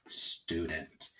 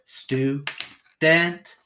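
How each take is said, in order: First: Said in the usual way. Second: "Stu, dent" in two separated beats; syllable by syllable. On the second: Shown as a demonstration. Teacher putting syllables together, "Stu, dent" said apart. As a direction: break "Stu, dent" apart, each syllable stressed, second higher. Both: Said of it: "Put it together".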